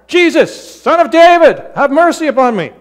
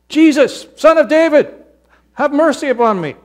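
First: It is said more loudly. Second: It is said at a normal volume.

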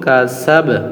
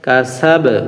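No difference in how they are said.

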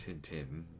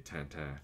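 First: The name is pronounced with English sounds. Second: The name is pronounced with French sounds. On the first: "but everyone says it Tintin" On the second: "I'm French. So I say Tintin"

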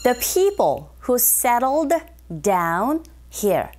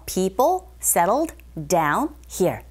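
First: Every word, including 'who', is pronounced distinctly. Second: The word 'who' is reduced and barely heard. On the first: "제가 또박또박 발음했거든요" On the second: "거의 후 들리지 않는 경우도 있어요"

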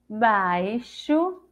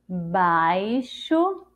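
First: The x is sounded as sh. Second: The x is sounded as sh.

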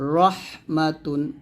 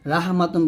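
First: The R is heavy, with a rounded o vowel. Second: The R is light, with an open a vowel. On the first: The speaker calls it right. "রর উপরে জবর অথবা রর উপরে পেশ থাকলে আমরা রটাকে মোটা করে পড়ব" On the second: The speaker calls it wrong. "রাহ মাতুন বলবেন না"

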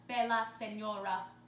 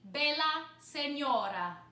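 First: The R is a smooth American R. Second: The R is a quick flipped tap. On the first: "use our regular American R" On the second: "flipping the R"

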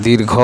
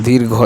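No difference in how they are said.

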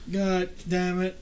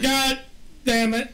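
First: It is said with low, sleepy energy. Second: It is said with lively, high energy.

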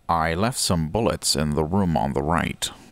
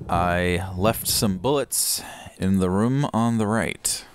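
First: It is read in a put-on character voice. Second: It is read in a plain, ordinary voice.

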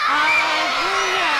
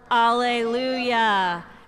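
First: The word is shouted very loudly. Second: The word is said at normal loudness.

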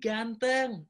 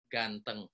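First: The word is said with excited emotion. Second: The word is said flat, without emotion. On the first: "Ada gregetnya, ada emosinya" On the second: "yang pertama flat sama seperti tadi"

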